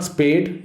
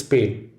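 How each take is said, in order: First: "spayed" as SPADE; wrong spayed. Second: "spay" with no d, lower; right spay. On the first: Teacher showing students the wrong word, "spayed". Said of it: "have your dog spayed". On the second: Teacher showing students the right word, "spay". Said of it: "please don't spay her". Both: Shown as a demonstration.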